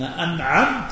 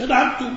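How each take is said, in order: First: The word ends with a short 'a' vowel. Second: The word ends with a short 'u' vowel. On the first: God is the one who bestows blessing. The speaker calls it right. "أنت تقول لله صراط الذين أنعمت" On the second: The reciter himself is the one who bestows blessing. The speaker calls it wrong. "مش أنعمت، مش أنت منعم"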